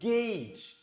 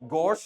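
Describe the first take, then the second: First: The vowel sounds like 'ay'. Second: The vowel sounds like 'oh'. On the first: The speaker calls it right. "It is pronounced as ഗേജ്" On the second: The speaker calls it wrong. "നമ്മളിതിനെ ഗൗജ് എന്നോ ഘോഷ് എന്നല്ല വായിക്കുന്നത്"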